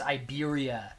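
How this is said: It is said with an English accent. "in English it's"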